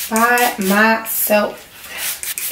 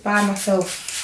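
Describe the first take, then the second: First: "By myself" very slow, word by word; emphatic BY MYSELF. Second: Said in the usual way. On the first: Real, not acted.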